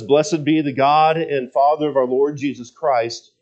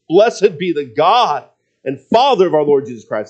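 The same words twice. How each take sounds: First: It is read in a calm, plain tone. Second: It is said with bursting, excited praise.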